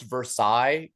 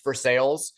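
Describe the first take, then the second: First: The last syllable sounds like 'sigh'. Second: The last syllable sounds like 'sails'. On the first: This is the original French way. The speaker calls it right. "what should be pronounced Versailles" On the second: This is the local Kentucky way. The speaker calls it wrong. "but we call it"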